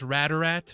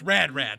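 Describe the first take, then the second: First: An extra vowel links the two words. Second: The two words are said with no vowel between. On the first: This is how the character says the name. "she kind of enunciates it. She goes Radarat" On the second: This is how the name is written. "it's Rad Rat. It's spelled Rad Rat"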